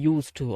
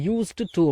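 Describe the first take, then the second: First: The s sound runs straight into the t. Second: A separate d sound follows the s sound. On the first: The speaker calls it right. "யூஸ் டு அப்படின்னு தான் உச்சரிக்கணும்" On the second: The speaker calls it wrong. "இந்த யூஸ்டு டு அப்படிங்கிறத"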